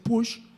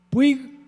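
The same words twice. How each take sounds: First: The name is said the Catalan way. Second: The name is not said the Catalan way.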